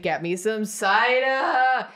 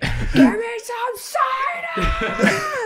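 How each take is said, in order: First: It is said louder, raising the voice. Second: It is screamed at full volume.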